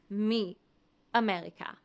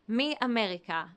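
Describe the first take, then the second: First: There is a pause after 'mi'. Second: The words flow together with no pause. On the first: The speaker calls it wrong. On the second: The speaker calls it right. "Flow them together, one fluid sound"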